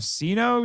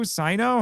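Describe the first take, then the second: First: Sino said with an "ee" first syllable; Sino as "SEE-no". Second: Sino said with an "eye" first syllable, higher and questioning; Sino as "SIGH-no". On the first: Host trying one reading of a game character's name, Sino as SEE-no. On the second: Host offering another reading of the character's name, Sino as SIGH-no. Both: Shown as a demonstration. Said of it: "however you're supposed to say it".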